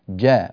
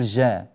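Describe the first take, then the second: First: The j sound is pressed firmly and hard. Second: The j sound is soft and not pressed. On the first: The speaker calls it right. "حرف الجيم حرف شديد لا بد أن يضغط عليه في مخرجه" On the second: The speaker calls it wrong. "ولا تقول"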